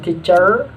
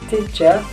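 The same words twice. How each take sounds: First: The final r sound is pronounced. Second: The final r sound is dropped. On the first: "Amerika akan dibaca" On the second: "British lepasin aja semuanya itu R"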